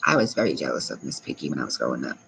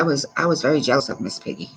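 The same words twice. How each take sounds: First: Low quiet repeat. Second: Said in the usual way. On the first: Real, not acted. Streamer repeating her childhood jealousy to chat, sheepish low mutter. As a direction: lower and much softer, fast, like a sheepish aside.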